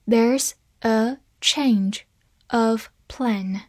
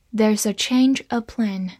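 First: Very slow, each word apart; slow reading. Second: Said in the usual way. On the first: Shown as a demonstration. Teacher reads once slowly for learners, slow reading. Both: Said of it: "好，慢读一遍".

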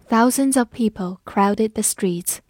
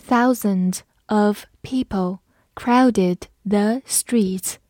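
First: Said in the usual way. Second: Thousands of people crowded the streets said slowly; slow read-along. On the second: Shown as a demonstration. Teacher reading slowly so students can follow. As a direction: read slowly, each word clear. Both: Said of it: "我们慢读一遍".

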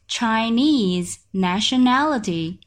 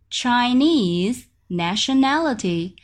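No difference in how they are said.

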